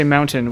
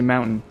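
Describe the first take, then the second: First: "mountain" said with a crisp, audible t; "mountain" as moun-tin with the t pronounced; mountain with a clear t. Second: "mountain" with the t swallowed into a glottal stop; "mountain" with a glottal catch instead of a t; Utah mountain. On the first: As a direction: give "mountain" its full t sound. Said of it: "we don't say". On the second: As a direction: say "mountain" as moun-in, Utah style. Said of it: "we say". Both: Shown as a demonstration.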